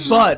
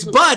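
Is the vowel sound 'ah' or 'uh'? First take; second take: uh; ah. First: The vowel is a plain short 'uh' sound. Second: The vowel is a broad, open 'ah' sound. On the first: "it's not bud" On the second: "It's bud. ... it's B A H D"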